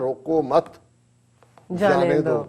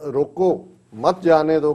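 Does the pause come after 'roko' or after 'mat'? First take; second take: after mat; after roko. First: The pause comes right after the second word. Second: The pause comes right after the first word. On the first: "ਜੇ ਉਹ comma ਮਤ ਤੇ ਲੱਗ ਜਾਏ" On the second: "ਜੇ ਤੁਸੀਂ ਰੋਕੋ ਤੇ ਕੌਮਾ ਲਾਤਾ"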